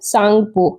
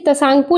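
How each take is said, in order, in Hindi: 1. इस शब्द की शुरुआत s ध्वनि से होती है, t से नहीं। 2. इस शब्द की शुरुआत में t की साफ़ ध्वनि सुनाई देती है। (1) "टी जो है ये साइलेंट हो जाता है, तो इसको सांगपो पढ़ते हैं" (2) "तसांगपो लिखा गया है"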